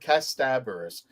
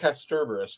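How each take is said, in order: First: The second syllable ends in a plain vowel. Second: The second syllable ends with an r sound. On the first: The speaker calls it right. "It's an A, Casta" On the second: The speaker calls it wrong. "for those of you who've been saying Casterberus"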